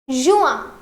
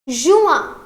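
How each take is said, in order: Both takes have the same delivery.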